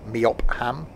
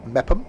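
First: Meopham read literally as MEE-op-ham; spelling pronunciation. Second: Mepham in two syllables, MEP-um; guessed pronunciation. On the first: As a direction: sound out Meopham with a full HAM. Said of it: "isn't gonna be pronounced Meopham". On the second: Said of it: "I'm guessing it's pronounced Mepham". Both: Shown as a demonstration.

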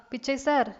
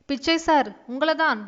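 First: Said in the usual way. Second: A louder second call, name stressed. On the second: Acted. Young shopkeeper calls the distracted old man louder. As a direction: raise the voice to get his attention. Calls again, unanswered the first time.

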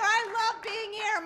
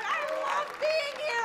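First: Said in the usual way. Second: Excited gush. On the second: Real, not acted. Gushing opener.

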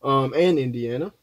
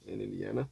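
First: Said in the usual way. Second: Quiet aside. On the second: Real, not acted. Vlogger muttering the state name to himself while filling the map, quiet. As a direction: drop low and soft, muttered to himself.

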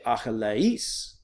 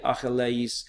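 First: "Achilles" as slow Greek a-hi-le-IS, voice rising on IS; "Achilles" in Greek, stressed and lifted at the end; last syllable accented. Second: "Achilles" in Greek without the raised last syllable; "Achilles" with the final "is" not raised; wrong accent placement. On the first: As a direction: raise the voice on the final syllable of "Achilles". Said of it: "you accent that last syllable". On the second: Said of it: "where you raise your voice". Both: Shown as a demonstration.

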